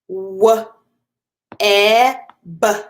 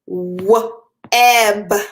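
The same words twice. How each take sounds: First: The sounds are said slowly. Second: The sounds are said quickly.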